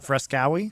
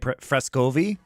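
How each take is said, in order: First: The last syllable starts with a w sound. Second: The last syllable starts with a v sound. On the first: The speaker calls it wrong. "and not Frescowi" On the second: The speaker calls it right. "which is what it is"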